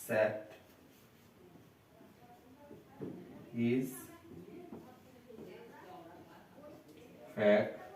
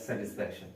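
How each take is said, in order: First: স্যাটিসফ্যাকশন broken as স্যাট, ইজ, ফ্যাক, শন with long pauses; split into syllables. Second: Said in the usual way. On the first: Shown as a demonstration. Teacher breaking a word to count, স্যাটিসফ্যাকশন in widely spaced syllables. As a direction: hold each piece of স্যাট-ইজ-ফ্যাক-শন apart. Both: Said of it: "ভাঙি তো দেখি কি হয়".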